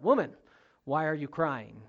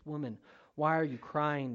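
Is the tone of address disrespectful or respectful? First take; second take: disrespectful; respectful. First: The address sounds harsh and disrespectful. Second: The address sounds gentle and respectful. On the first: The speaker looks down on the woman. The speaker calls it wrong. "So it's not" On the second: The speaker addresses the woman with respect. The speaker calls it right. "It means he's addressing her as"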